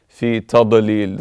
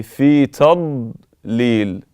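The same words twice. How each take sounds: First: في تضليل with the dad bounced; wrong dad demo. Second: في تضليل with the dad held in, mouth full of air; correct dad. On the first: Teacher showing what not to recite. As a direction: let the dad pop out wrongly. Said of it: "This is incorrect". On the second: Teacher giving the correct reading. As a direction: hold the dad without release. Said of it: "So you say". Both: Shown as a demonstration.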